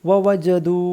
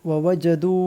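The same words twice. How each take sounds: No difference in how they are said.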